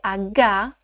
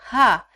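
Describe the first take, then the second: First: The letter is named as in Portuguese. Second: The letter is named as in German. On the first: The speaker calls it wrong. "O H não se lê H" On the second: The speaker calls it right. "se lê H"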